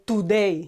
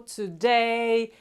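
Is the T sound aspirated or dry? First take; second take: dry; aspirated. First: The T is dry, with no puff of air. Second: The T is released with a puff of air. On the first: "The Spanish would say" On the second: "compared to the English T, where you say"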